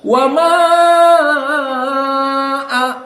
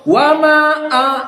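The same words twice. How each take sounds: First: The vowel in 'ma' is held very long. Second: The vowel in 'ma' is held only briefly. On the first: The speaker calls it wrong. "Or full, like wars and hamzah. Wama a, this wrong" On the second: The speaker calls it right. "Qiraah As-Susi just two harokat. So wama a, wama a, just two"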